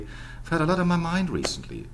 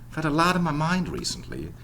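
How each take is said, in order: First: It is said in a British RP accent. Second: It is said in an American accent. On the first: "weak R P would be" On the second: "Or American English"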